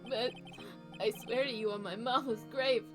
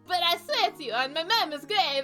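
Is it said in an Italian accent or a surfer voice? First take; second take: surfer; Italian. First: It is said in a laid-back surfer voice. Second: It is said in a put-on Italian accent.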